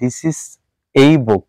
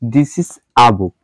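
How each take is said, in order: First: The article is said as a full 'ay'. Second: The article is said as a short 'uh'. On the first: The speaker calls it wrong. "এটাকে আমরা এই বুক বলতে পারবো না" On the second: The speaker calls it right. "সেন্টেন্সের মধ্যে থাকবে তখন এটার উচ্চারণ হচ্ছে আ"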